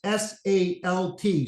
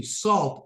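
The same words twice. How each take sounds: First: S A L T said as separate letters S, A, L, T, slowly; S A L T, each letter spelled out slowly on its own. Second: Said in the usual way. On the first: Shown as a demonstration. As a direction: spell S A L T out one letter at a time, unhurried.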